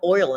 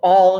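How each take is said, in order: First: The vowel is a full 'oy' glide. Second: The vowel sounds like 'all', not 'oil'. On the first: "No, I put oil in my car" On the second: "Do you put all in your car?"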